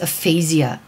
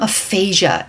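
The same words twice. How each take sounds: First: The word is said in a British-style pronunciation. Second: The word is said in the speaker's usual pronunciation.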